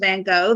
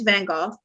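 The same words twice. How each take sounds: First: Van Gogh is said the American way. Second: Van Gogh is said the non-American way. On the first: The speaker calls it wrong. "the American version is Van Gogh. That's actually incorrect" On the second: The speaker calls it right. "the correct pronunciation is Van Gogh"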